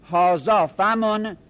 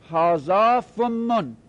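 First: Slow هازا فمن, single quick m; light single mim. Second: Slow هازا فمن, fa matching the doubled mim. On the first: Teacher showing the form without doubling, slowly. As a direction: say فمن as fa-mun with one short m. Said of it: "بگید فمن". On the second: Teacher showing the doubled form, slowly. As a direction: say فمن as fum-mun with a long held m. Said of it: "میمش تشدید بدید". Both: Shown as a demonstration.

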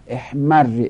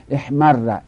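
First: احمر loud, doubled r, final "i"; احمر as "ehmarri"; kasra ending. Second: احمر loud, doubled r, final "a"; احمر as "ehmarra"; fatha ending. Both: Shown as a demonstration.

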